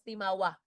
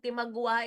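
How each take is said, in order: First: No 'g' sound comes before the 'w'. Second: A 'g' sound comes before the 'w'. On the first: The speaker calls it right. "but pronounced as Timawa" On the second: The speaker calls it wrong. "Hindi yan Timagwa. It's only written as Timagwa"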